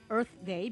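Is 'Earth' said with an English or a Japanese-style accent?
English. Earth is said with an English th sound. "the English word Earth for our planet Earth"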